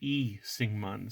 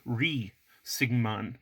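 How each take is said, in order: First: The name begins directly with a vowel. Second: The name begins with an R sound. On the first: "no sound and just have the vowel sound" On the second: "transcribed in English with R H E E"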